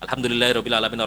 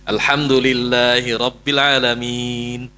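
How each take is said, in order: First: The long vowels are kept short and rushed. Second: The long vowels are clearly drawn out. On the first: The recitation does not follow the Prophet's practice. The speaker calls it wrong. "Tidak dibaca" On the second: The recitation follows the Prophet's practice. The speaker calls it right. "berapa kali antum baca panjangnya?"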